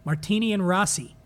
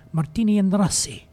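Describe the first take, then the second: First: Said in the usual way. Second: Lightly hammed-up Italian accent with a Russian tinge; playful, muddled Italian-Russian accent; Russian-infused Italian accent. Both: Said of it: "Russian-infused Italian accent".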